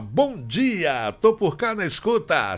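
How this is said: It sounds content, as if all is well.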